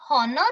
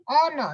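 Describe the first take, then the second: First: "honor" wrongly as hon-or; H sounded. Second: "Honor" said as on-or; silent H. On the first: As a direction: say "honor" with a breathed h. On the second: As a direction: begin "Honor" on the vowel. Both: Shown as a demonstration. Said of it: "not honor".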